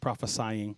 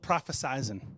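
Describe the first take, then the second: First: The word has no z sound near the end. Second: The word has a z sound near the end. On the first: The speaker calls it right. "There's no Z. It's prophesying" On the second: The speaker calls it wrong. "I say that wrong on purpose"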